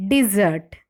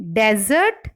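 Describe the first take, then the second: First: Desert stressed on the second syllable, di-ZERT; verb stress. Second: Desert stressed on the first syllable, DEZ-ert; noun stress. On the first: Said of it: "the stress falls on the second syllable". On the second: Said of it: "nouns or adjectives are stressed on". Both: Shown as a demonstration.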